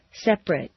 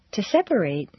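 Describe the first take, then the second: First: "Separate" in two syllables, "SEP-rit"; adjective pronunciation. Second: "separate" in three syllables, "SEP-er-ate"; verb pronunciation. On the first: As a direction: squeeze "Separate" short with a weak ending. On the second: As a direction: give "separate" a long A at the end. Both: Shown as a demonstration. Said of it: "regular transitions of adjectives and verbs".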